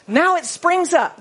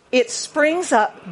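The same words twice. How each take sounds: First: Grand, loud proclamation of "Now it springs up"; booming scripture line; big grand reading. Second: Unhurried teaching read; slow explanation. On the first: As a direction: make it sound huge. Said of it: "That sounds big". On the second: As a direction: spell the sense out slowly. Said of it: "In the original language, here". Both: Shown as a demonstration.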